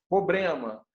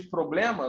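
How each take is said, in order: First: "problema" dito como "pobrema", sem o r; pronúncia errada. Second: Said in the usual way. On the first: Shown as a demonstration. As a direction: troque "problema" por "pobrema", engolindo o r. (imitando quem fala "pobrema" em vez de "problema") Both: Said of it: "não consegue falar problema".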